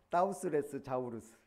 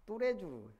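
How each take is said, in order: First: Every written letter is sounded out in English style. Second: It is said as the smooth French name. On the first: "그대로 읽으면 따우스 레스 자우루스 무식한"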